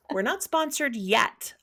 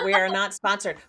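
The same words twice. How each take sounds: First: "yet" lifted high as a playful hint; teasing disclaimer that leans on "yet"; stress on YET. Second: We ARE NOT sponsored, said firmly and louder; firm, louder disclaimer on "are not sponsored"; stress on ARE NOT. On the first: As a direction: land pointedly on "yet", pitched up. Hinting to Audible with yet. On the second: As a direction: lean on "are not", louder, falling at the end. Correcting, then adding a hopeful yet. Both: Real, not acted.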